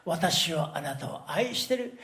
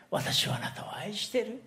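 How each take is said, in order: First: Said in the usual way. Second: Whispered verse. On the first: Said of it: "さっきの御言葉". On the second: Acted. Preacher to the congregation, repeating God's promise of love in a whisper. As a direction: whisper it tenderly, unvoiced.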